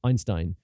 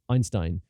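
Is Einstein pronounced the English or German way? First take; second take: English; English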